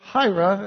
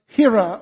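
First: The name is said in an English way. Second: The name is said in a non-English way.

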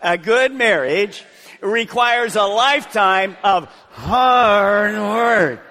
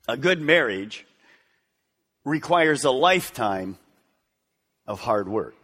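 First: The word hard is strongly emphasized. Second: The word hard gets no special emphasis.

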